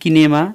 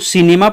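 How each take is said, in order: First: It begins with a 'k' sound. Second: It begins with an 's' sound. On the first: The speaker calls it wrong. "न कि किनेमा" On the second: The speaker calls it right. "सिनेमा पढ़ा जाएगा"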